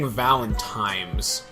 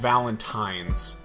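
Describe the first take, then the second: First: The consonant before the final s is m. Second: The consonant before the final s is n. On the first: The speaker calls it wrong. "You keep saying Valentimes" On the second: The speaker calls it right. "It is Valentines"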